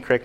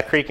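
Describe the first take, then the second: First: "crick" with a short I, rhyming with brick; short I vowel. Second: "creek" with a long EE, rhyming with seek; long EE vowel. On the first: Pastor compares regional words with congregation, "crick" with short I. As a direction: say "crick" to rhyme with sick. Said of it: "my dad says crick". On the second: Pastor compares regional words with congregation, "creek" with long EE. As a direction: say "creek" to rhyme with week. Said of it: "I say creek". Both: Shown as a demonstration.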